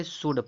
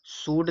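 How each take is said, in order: First: सुड with a short "u", pitched down; correct reading. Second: सूड with a long "oo", pitched up; wrong reading. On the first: Teacher giving students should, सुड with short u. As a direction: model सुड with short u, like "good". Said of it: "सुड पढ़ेंगे". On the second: Teacher warning students off a misreading, सूड with long oo. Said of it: "सूड नहीं पढ़ेंगे". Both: Shown as a demonstration.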